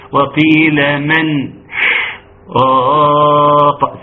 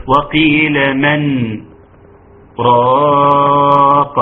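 First: Slow chant, audible breath between "من" and "راق"; wrong saktah with breath. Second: Slow chant, silent stop after "من", then long-held "راق"; correct saktah. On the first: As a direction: sniff in air before the long "راق". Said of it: "سمعت قبل النفس بتاعي ده؟". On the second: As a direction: hold the pause before "راق" without taking a breath. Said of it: "ولكن يقول". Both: Shown as a demonstration.

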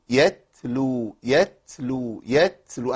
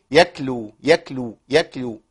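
First: يتلو with a crisp ت from the tongue tip, slow; correct t. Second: يكلو with ت slipping back to a whispered ك; wrong k sound. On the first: Teacher modelling the correct t for students. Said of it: "لازم طرف اللسان هو اللي يشتغل". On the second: Teacher exaggerating the common t-to-k mistake. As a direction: say يكلو from the back of the tongue, breathy. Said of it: "أنا بالغ شوية في الهمس". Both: Shown as a demonstration.

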